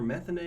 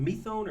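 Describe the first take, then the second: First: "methane" said METH-ane, like the gas; "methane", the first syllable stressed. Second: "methone" said with a long o, meth-OHN; "methone", rhyming the end with bone. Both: Shown as a demonstration. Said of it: "is it methone or methane".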